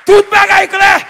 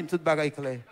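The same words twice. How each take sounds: First: High, ringing proclamation; raised, jubilant pulpit cry; triumphant preaching shout. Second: Very low, soft delivery; subdued report of the outcome; quiet retold news. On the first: Real, not acted. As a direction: proclaim the good news at full force. Preacher repeats the news triumphantly. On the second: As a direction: say it low and hushed. Doctor's news, first take.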